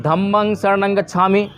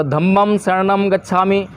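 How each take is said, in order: First: "धम्मं शरणं गच्छामि" slowly, with each ं as a nasal "ng"; Pali-style pronunciation. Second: "धम्मं शरणं गच्छामि" slowly, with each ं closed as a clear "m"; Sanskrit-style pronunciation. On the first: Teacher showing students how we chant it, Pali "ng" endings. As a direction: say "धम्मं" as "dham-mang" and "शरणं" as "sharanang". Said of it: "और हम क्या बोल रहे हैं". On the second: Teacher showing students how others say it, Sanskrit "m" endings. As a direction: say "धम्मं" as "dham-mam" and "शरणं" as "sharanam". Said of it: "कुछ लोग धम्मम बोलते हैं".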